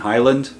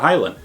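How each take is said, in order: First: The d sound is clearly pronounced. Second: The d sound is left out.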